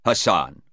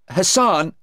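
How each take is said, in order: First: Probing lawyer. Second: HASSAN high and louder; upset witness. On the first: Lawyer seizing on the name Sarah gave, probing. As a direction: repeat Hassan coolly at usual pitch. Lawyer repeats the witness's word. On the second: Sarah naming Hassan to the lawyer, upset. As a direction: blurt out Hassan on a high pitch. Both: Acted.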